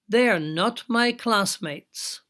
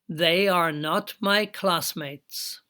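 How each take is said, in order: First: The first words are joined into a contraction. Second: Every word is said fully and separately.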